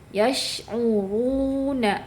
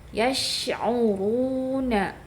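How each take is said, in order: The two takes are said the same way.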